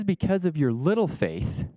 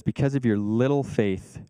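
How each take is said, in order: First: Slow, higher, dry mocking lean on "little"; a little sarcastic. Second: Said in the usual way. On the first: Shown as a demonstration. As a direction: tease them lightly, stretching "little". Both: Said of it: "Jesus gets a little bit sarcastic".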